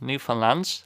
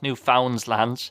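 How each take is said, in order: First: The stress does not fall on 'found'. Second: The stress falls on the syllable 'found'. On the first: The speaker calls it right. "but Newfoundland, I think that's more or less right" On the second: The speaker calls it wrong. "It's not Newfoundland. The emphasis isn't on found"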